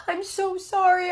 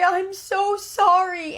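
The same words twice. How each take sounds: First: Put-on high, tearful little girl voice, a bit slow; crying child apology. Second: Put-on high little girl voice, drawn out very slowly and louder; slower crying apology. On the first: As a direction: plead through tears like a small child. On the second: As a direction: let the second sorry stretch and break into a sob. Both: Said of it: "and she's just crying".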